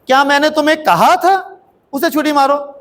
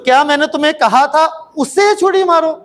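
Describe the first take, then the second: First: The stress is on कहा. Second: The stress is on उसे.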